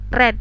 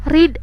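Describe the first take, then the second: First: Read has its past-tense pronunciation. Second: Read has its present-tense pronunciation.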